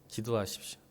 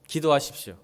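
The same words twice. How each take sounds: First: Hushed urging. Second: Said in the usual way. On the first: Acted. Pastor quietly urging the congregation to pray, hushed. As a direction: drop to a soft, quiet plea on 기도하십시오.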